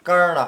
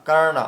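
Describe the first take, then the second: The two takes are said the same way.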